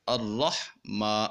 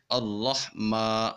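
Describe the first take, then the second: First: اللہ ما slowly, with ما pushed into the nose like ماں; nasal wrong example. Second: اللہ ما drawn out slowly, ما held one alif long without going into the nose; slow recited اللہ ما, the ما stretched long and clear, not nasal; correct Quranic recitation. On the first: Tutor shows the wrong nasal ما for students to avoid. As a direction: show the mistake: the ما of اللہ ما said through the nose. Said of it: "ما نہیں کہنا". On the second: Quran tutor shows students the long ما, slow and not nasal. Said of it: "کیسے پڑھیں گے؟". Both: Shown as a demonstration.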